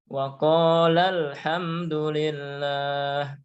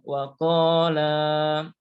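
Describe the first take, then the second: First: The final vowel is short, linked to the next word. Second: The final vowel is held long before a stop. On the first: The reader continues without stopping. "kalau sambung maka dibaca pendek" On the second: The reader stops after this word. "kalau berhenti panjang dua harokat"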